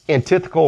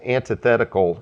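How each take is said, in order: First: It is said in a British-style pronunciation. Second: It is said in an American-style pronunciation. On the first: It suits reading from the King James Bible. "if we're reading out of the King James" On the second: It suits reading from other translations. "if we're reading out of something else"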